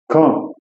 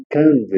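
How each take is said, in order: First: Quand said with a silent d; correct French. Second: Quand said with the d sounded; wrong way. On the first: Teacher shows the right quand. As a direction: quand ending on the nasal vowel. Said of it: "Eu vou falar". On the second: Teacher shows the wrong quand. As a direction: quand with a d at the end. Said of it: "eu não vou falar quand". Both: Shown as a demonstration.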